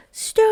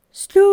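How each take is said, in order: First: Much higher and louder call. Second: Louder call. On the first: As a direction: call down the mouse hole. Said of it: "Then they all called". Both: A narrator's reading.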